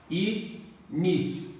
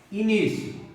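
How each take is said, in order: First: "Início" stretched out with a pause inside; syllable by syllable. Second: Said in the usual way. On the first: Shown as a demonstration. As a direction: break "Início" slowly into its syllables. ("Início" pausado, separando as sílabas) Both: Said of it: "Faça a separação silábica".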